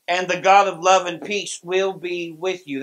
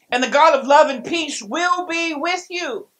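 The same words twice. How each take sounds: First: Said in the usual way. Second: "God" lifted higher, louder and slower; preacher's stressed repeat; emphatic reread. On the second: Shown as a demonstration. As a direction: proclaim "And the God of love and peace will be with you" with weight on "God". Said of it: "How important is that?".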